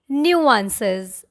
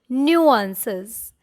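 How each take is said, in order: Both takes have the same delivery.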